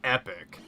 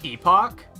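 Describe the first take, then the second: First: It is said like the word epic. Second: It is said like the word epoch. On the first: "I've heard speedrunners pronounce it Epic" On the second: "I always thought it was pronounced Epoch"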